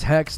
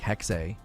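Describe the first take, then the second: First: The final E is silent, one syllable. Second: The final E is pronounced, two syllables. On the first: The speaker calls it wrong. "I thought it was Hex" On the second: The speaker calls it right. "The final E is being pronounced. I believe is like Hexe"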